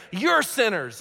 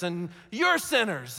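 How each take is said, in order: First: Said in the usual way. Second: Slowed mocking accusation. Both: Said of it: "go around saying".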